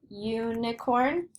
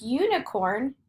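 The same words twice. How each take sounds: First: Slow "Unicorn", first "you" held; "Unicorn" said slowly to show its "you" sound; drawn-out long U. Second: Said in the usual way. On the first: Shown as a demonstration. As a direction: stretch the opening long U of "Unicorn". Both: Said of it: "Do you hear the long U?".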